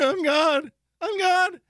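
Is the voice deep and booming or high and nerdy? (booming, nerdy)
nerdy. The voice is high and nerdy. "Imagine if he talked like the nerd from The Simpsons"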